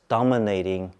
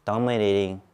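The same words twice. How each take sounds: The two takes are said the same way.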